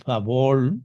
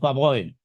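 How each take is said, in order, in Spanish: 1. La palabra termina sin sonido i. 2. La palabra termina con sonido i. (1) "en unas partes dicen favor" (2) "en otras decimos favor"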